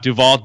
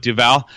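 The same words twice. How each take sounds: First: Put-on "Duval" said the old, mistaken way; rejected pronunciation. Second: "Duval" said the newly learned way; corrected pronunciation. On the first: Host showing cohost the old name, mispronouncing "Duval". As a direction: show the outdated way of saying "Duval". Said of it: "is how you pronounce it now". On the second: Host correcting the player's name, pronouncing "Duval" properly. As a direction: carefully give the corrected "Duval". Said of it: "We're learning, not Duval, but Duval". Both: Shown as a demonstration.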